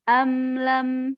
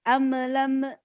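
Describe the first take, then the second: First: Said slowly, ending cleanly on the final m. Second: Said quickly, with an extra vowel after m. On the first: The speaker calls it right. "disempurnakan dulu gitu, diselesaikan dulu" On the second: The speaker calls it wrong. "kalau cepet-cepet bacanya jadi amlame"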